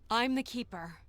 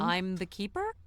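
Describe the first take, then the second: First: It is said firmly, with conviction. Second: It is said hesitantly, without conviction.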